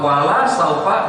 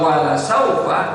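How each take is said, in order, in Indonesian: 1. Vokal dalam 'la' dipanjangkan. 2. Vokal dalam 'la' pendek. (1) "tidaklah nanti" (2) "pastilah nanti"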